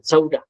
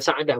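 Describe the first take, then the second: First: The middle vowel sounds like 'u'. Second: The middle vowel sounds like 'a'. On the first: The speaker calls it right. "Saudah, Sinwaw, Dal, Ta, Marbutah" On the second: The speaker calls it wrong. "Bukan Sa'adah, bukan"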